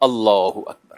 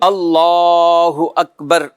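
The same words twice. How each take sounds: First: The phrase is said short, not prolonged. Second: The phrase is stretched out and prolonged. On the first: The hands are to be folded here. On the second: The hands are to be released here.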